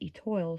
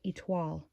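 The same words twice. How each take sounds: First: The word is said with an English pronunciation. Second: The word is said with a French pronunciation. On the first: The speaker calls it wrong. "I've been mispronouncing it for years as" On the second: The speaker calls it right. "it's actually pronounced"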